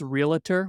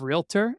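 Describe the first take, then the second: First: An extra vowel is added inside the word. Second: The word has no extra vowel inside it. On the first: This is the pronunciation that annoys real estate agents. The speaker calls it wrong. "with an A" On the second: This is the pronunciation that agents expect. The speaker calls it right. "instead of "realtor,""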